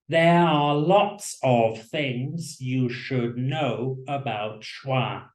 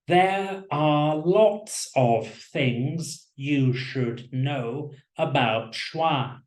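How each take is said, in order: First: Every syllable is stressed evenly and fully. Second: Every syllable is stressed evenly and fully.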